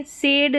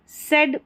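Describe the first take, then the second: First: सेड with a long drawn "ay" vowel; mispronunciation. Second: सेड with a short vowel, as in English "said"; correct pronunciation. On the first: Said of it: "सेड नहीं पढ़ना है". (गलत, लंबी "ए" वाला "सेड") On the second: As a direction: say सेड short, as the teacher models it. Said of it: "सेड पढ़ेंगे, सेड नहीं पढ़ना है". (सही उच्चारण में छोटा "सेड") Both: Shown as a demonstration.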